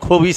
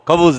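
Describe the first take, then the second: First: The second vowel sounds like 'i'. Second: The second vowel sounds like 'u'. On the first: It means an evil person, who cannot be eaten. The speaker calls it wrong. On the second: It means bread. The speaker calls it right.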